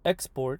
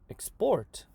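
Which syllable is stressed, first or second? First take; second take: first; second. First: The stress is on the first syllable. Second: The stress is on the second syllable. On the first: It is used as a noun. "the noun will have the stress on the front" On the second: It is used as a verb. "the verb export"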